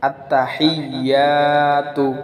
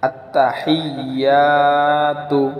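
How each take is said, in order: The two takes are said the same way.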